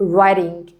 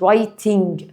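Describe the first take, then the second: First: The middle t is a soft flap. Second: The middle t is a clear t. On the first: "انطقها فلابتي اللي هي زي بتاعت الأمريكان" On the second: "بس عادي writing برضو صح"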